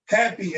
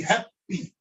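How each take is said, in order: First: Said in the usual way. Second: Happy with both P's sounded, hap-pee; doubled consonant. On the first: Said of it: "If we were to say happy in Arabic". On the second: Shown as a demonstration. Teacher saying happy as Arabic would, doubled P. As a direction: hold the P in happy, then release. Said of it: "you're gonna say both of them".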